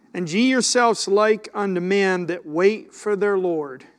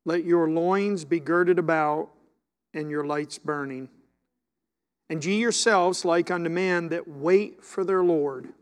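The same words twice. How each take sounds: First: Said in the usual way. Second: Talking around chewing gum. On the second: Real, not acted. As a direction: gum in the mouth while reading. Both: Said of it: "I can't do this with gum in my mouth".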